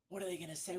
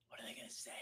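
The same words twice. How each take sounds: First: Nervous inner voice. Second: Whispered worried inner voice; anxious whisper. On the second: Recruiter voicing his old fear before a call, whispered. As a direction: breathe the worry out, barely there. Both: Retold or imitated. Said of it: "I used to sit there and look at the phone".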